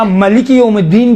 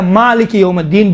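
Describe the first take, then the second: First: "ملک" as ma-li-ki, first vowel short; short-a reading. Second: "مالک" as maa-li-ki, first vowel long; long-a reading. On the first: Teacher showing students the alternative qira'at, short vowel. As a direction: keep the first A of "ملک" brief. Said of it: "ملکی بھی پڑھا گیا ہے". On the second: Teacher showing students the preferred qira'at, long vowel. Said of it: "مالک یوم الدین بہتر ہے ملکی سے". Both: Shown as a demonstration.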